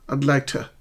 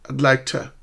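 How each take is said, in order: Both takes have the same delivery.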